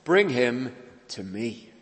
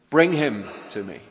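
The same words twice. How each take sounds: First: Slow build to a weighted "me"; stress on ME. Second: "Bring" hit louder and first, urgent; stress on BRING. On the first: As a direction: hold back, then land on "me" at the end. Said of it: "was the emphasis at the other end". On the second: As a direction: put the weight on "Bring", then let "to me" fall. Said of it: "The emphasis being on the bringing, urgent". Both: Shown as a demonstration.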